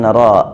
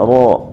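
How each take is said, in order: First: The syllable is thin, with an open a vowel. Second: The syllable is thick, with a rounded o-like vowel. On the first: The speaker calls it wrong. "bukan ra ya" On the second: The speaker calls it right. "ro-nya masih kurang tebal ya"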